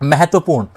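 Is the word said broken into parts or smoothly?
smoothly. The word is said smoothly without breaks.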